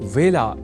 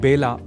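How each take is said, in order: First: The word begins with a 'v' sound. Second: The word begins with a 'b' sound. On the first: The speaker calls it right. "व का कई बार ब के रूप में उच्चारण करना अशुद्ध होता है" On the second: The speaker calls it wrong. "इसे बेला नहीं बोला जाना चाहिए"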